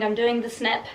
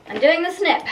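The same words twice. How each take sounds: First: Said in the usual way. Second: Higher, louder repeat; raised, excited resolve; emphatic declaration. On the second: Real, not acted. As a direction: announce it boldly with a pitch jump. Repeats decision with mock drama.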